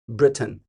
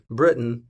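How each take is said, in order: First: The middle T is fully and crisply pronounced. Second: The middle T is a soft, hidden catch. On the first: "And then there's Britain. Boom" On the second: "the middle way is Britain, the way we three say it"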